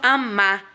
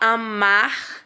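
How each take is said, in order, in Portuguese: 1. O R final é omitido. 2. O R final é pronunciado com clareza. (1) "falamos só amar" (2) "ó o som, que é o som do R"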